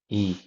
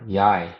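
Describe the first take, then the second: First: The name is said as a plain "ee" sound. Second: The name is said with a "yai" sound. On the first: The speaker calls it right. "is actually pronounced E" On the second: The speaker calls it wrong. "Yi or Yai to most people who don't know"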